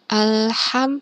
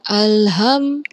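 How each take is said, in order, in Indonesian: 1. Bunyi h kasar dan berdesah, keluar dari tenggorokan. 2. Bunyi h itu biasa saja, hembusan napas yang ringan. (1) "haknya hak kecil, hak hak hak seperti pedas" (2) "bukan alham, akan berbeda artinya"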